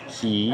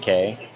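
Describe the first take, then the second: First: The word is pronounced like 'key'. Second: The word is pronounced like 'kay'. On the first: The speaker calls it right. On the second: The speaker calls it wrong.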